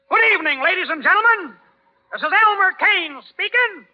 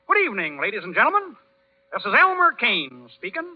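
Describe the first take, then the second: First: It is said loudly and firmly. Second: It is said softly and timidly.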